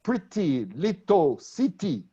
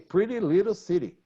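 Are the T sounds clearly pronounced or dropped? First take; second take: pronounced; dropped. First: The T sounds are clearly pronounced. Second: The T sounds are dropped or softened. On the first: "They don't say like" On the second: "the T is not pronounced"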